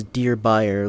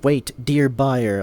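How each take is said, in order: First: Said in the usual way. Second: Mocking scammer. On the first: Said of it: "Like he says". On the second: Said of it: "Like he says, "Dear buyer".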